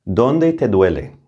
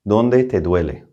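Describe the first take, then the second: First: Slow model question. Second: Said in the usual way. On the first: Shown as a demonstration. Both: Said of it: "Let's start with a basic question".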